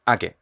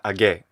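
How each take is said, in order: First: The stress is on the first syllable. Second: The stress is on the last syllable. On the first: The speaker calls it right. "It's age" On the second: The speaker calls it wrong. "it's not age ... the stress is wrong"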